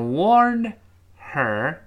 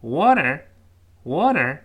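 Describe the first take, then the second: First: WARNED and HER said separately; careful word by word. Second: WARNED HER run together as "wanner"; linked, H dropped. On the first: Teacher showing students the unlinked form, careful word by word. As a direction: keep the D of WARNED and the H of HER apart. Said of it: "变成water". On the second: Teacher showing the fast-speech sound, linked with H dropped. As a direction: drop the H and link into one word, "wanner". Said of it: "语速非常快的情况下". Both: Shown as a demonstration.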